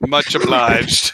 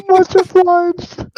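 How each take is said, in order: First: Slow, lightly drawled Southern thanks. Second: Slow, laughing Southern echo, high and loud; Southern drawl. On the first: Player thanking the wizard, slow Southern drawl. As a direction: tip your hat and drawl it, cowboy style. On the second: Player echoing the thanks, laughing in Southern drawl. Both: Acted. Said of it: "he's a Southern man".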